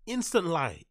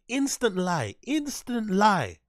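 First: Said in the usual way. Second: "Instant lie" higher, louder and slow, with weight on "lie"; drawn-out mocking callout. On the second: Shown as a demonstration. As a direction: stretch "lie" out as a slow, loud mocking verdict. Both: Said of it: "Instant lie, said three times".

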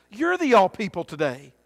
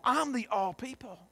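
First: YOU'RE stressed, then falling away. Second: I'M carries the stress, the rest softer. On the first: Preacher turning to the congregation, stressing YOU'RE. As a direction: land on "You're" first, then drop. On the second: Preacher counting himself among all people, stressing I'M. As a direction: lean on "I'm", said softly. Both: Real, not acted.

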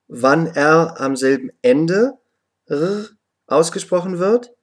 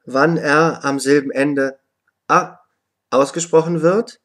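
First: Second R as a weak throaty r sound; consonantal R. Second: "A" as a short vowel in place of R. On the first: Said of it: "sehr schwach ausgesprochen". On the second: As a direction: say a short open "ah" for the final R sound. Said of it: "wird das R wie ein". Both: Shown as a demonstration.

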